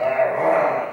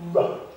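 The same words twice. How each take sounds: First: The R sound is hard and strong. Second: The R sound is soft and light. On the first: The speaker calls it wrong. "It's not like R" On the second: The speaker calls it right. "the R sound, r, is very soft"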